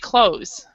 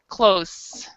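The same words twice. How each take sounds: First: The word is said without any 'th' sound. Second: The word is said with a 'th' sound. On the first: "we don't have to deal with the th. You just say close" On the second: "then you need to pronounce the th"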